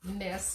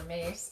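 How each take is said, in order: First: The name rhymes with 'kiss'. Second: The name rhymes with 'face'. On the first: "I don't know why it's pronounced Miss or Mace" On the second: "some people pronounce it Mace"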